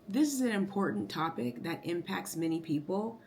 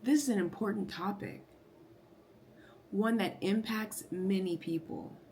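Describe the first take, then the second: First: It flows on without a pause after topic. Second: There is a clear pause after topic.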